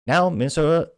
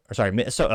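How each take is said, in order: First: Minnesota said in a deliberately mangled way, pitched up; purposeful mispronunciation. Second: Said in the usual way. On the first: Retold or imitated. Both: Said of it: "as I purposely mispronounced it pejoratively".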